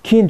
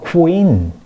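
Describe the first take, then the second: First: It is said without a w sound after k. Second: It is said with a w sound after k. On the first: The speaker calls it wrong. "퀸 좋아한다 그랬어요" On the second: The speaker calls it right. "W 발음이 들어가 있어요"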